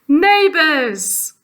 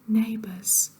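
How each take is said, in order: First: The word is said at normal loudness. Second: The word is said quietly.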